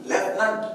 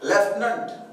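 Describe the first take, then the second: No difference in how they are said.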